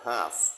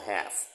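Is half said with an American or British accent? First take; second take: British; American. First: The vowel is a long 'ar' sound. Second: The vowel is a flatter 'a' sound. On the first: "ออกเสียงแบบ British" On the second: "แบบอเมริกัน"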